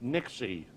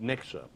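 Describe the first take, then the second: First: The name ends in an 'ee' vowel. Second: The name ends in an 'uh' vowel. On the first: This is how natives say the name. "If you're an insider and a native, they call it Nixie" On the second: This is how outsiders say the name. "if you're an outsider, they call it Nixa"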